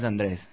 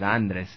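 First: The name is stressed the usual native way. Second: The name is stressed on a different syllable. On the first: This is the name as its owner says it. The speaker calls it right. "Andrés no es Andrés" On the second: This is how people abroad say the name. The speaker calls it wrong. "es Andrés, con acento en la"

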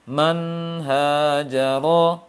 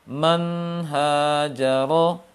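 No difference in how they are said.

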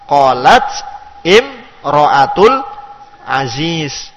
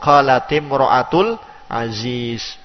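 First: The t of qalat has no vowel after it. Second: The t of qalat takes an i vowel, linking. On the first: "Jadi qalat itu dengan ta'nis as-sakinah" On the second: "Menjadi kasroh untuk memudahkan kita membaca hamzatul wasal"

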